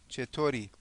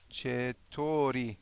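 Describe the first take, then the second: First: Said in the usual way. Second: "چطوری" stretched out syllable by syllable, softly; very slow. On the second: Shown as a demonstration. Teacher introduces the next word, "چطوری" very slow and soft. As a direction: draw out each syllable of "چطوری" quietly.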